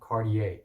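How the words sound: The name is said the American English way.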